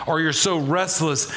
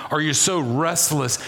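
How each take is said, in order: Both takes have the same delivery.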